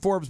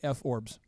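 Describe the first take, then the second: First: The name is said as one smooth syllable. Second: The name is split into two separate parts. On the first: The speaker calls it right. "It's called it's called Forbes" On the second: The speaker calls it wrong. "if you want to mispronounce it at home, you could say F Orbs"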